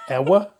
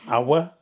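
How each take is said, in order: First: The word is said as two syllables. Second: The same.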